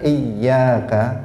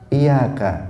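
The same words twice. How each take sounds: First: The y sound is held long and doubled. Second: The y sound is short and single. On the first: It means only to you. The speaker calls it right. "tidak iyyaka" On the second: It means to your sunlight. The speaker calls it wrong. "tanpa ditasydid, tidak iyyaka tetapi iyyaka"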